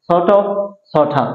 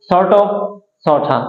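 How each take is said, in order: The two takes are said the same way.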